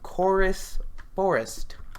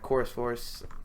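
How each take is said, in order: First: The phrase is said slowly and carefully. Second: The phrase is said fast and run together. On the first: The speaker calls it right. "I had to slow down for that one" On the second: The speaker calls it wrong. "Would not have want to said that too fast"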